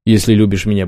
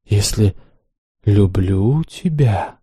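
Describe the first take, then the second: First: Said in the usual way. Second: «Если люблю тебя» stretched very slowly, each word long; drawn out. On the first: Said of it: "умоляюще проговорил я". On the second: A narrator's reading. The mistress echoes her slave's plea, drawn out. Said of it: "протяжно повторила Ванда".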